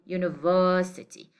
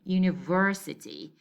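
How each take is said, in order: First: British accent, with the r sound dropped. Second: American accent, with the r sound pronounced. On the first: "With the British, it is said to be" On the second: "with the American pronunciation, it is pronounced as"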